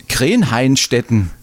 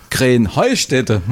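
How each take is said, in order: First: „Krenheinstetten“ mit deutlichem -hein-stetten; hochdeutsche Aussprache. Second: „Krenheustätte“ langsam, mit -heu- und ohne End-n; örtliche Aussprache. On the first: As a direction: sprich „Krenheinstetten“ nach der Schrift. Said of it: "wie man's offiziell ausspricht". (hochdeutsch ausgesprochen) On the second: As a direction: sprich „Krenheustätte“ langsam auf Schwäbisch. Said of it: "heißt es doch". (schwäbisch ausgesprochen) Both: Shown as a demonstration.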